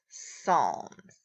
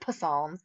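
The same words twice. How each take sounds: First: The word begins with a silent P. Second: The word begins with a sounded P. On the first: The speaker calls it right. "We just don't pronounce the P" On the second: The speaker calls it wrong. "So we don't say Psalms"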